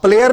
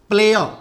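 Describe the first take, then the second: First: The final r sound is pronounced. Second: The word ends in a vowel, without r. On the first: The speaker calls it wrong. "हाँ प्लेयर नहीं" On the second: The speaker calls it right. "आर का उच्चारण क्या हो जाएगा, अ"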